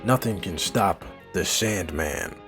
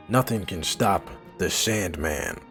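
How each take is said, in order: Both takes have the same delivery.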